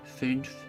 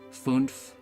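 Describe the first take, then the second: First: The vowel sounds like a rounded German ü. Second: The vowel sounds like a plain English oo. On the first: The speaker calls it right. "It has to be fünf" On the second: The speaker calls it wrong. "you can't just say fünf like that. It just doesn't sound"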